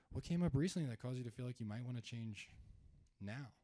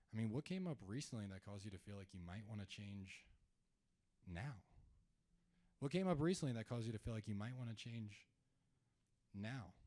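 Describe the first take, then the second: First: Softer, gently concerned question. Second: Curious and concerned. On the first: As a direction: sound concerned and caring as you ask. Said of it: "I wanna sound concerned". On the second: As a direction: ask gently, like you truly care. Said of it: "what type of tone did I just use". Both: Shown as a demonstration.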